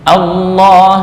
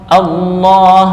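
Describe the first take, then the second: No difference in how they are said.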